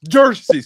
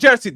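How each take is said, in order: First: The word is said with an extra R sound. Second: The word is said without an R sound. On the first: The speaker calls it right. "justice with the like a extra R" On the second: The speaker calls it wrong. "not justice"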